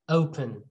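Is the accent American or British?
British. It is said in a British accent. "British and American"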